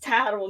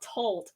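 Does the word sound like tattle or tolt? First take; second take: tattle; tolt. First: It is said with two syllables, like tattle. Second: It is said as one syllable, like tolt. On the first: The speaker calls it right. "it is tattle" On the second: The speaker calls it wrong. "not tolt. I say tolt because I switched the"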